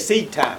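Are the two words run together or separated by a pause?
run together. The two words are run together as one word. It is treated as a single thing. The speaker calls it wrong. "We say seed time. We put it one word"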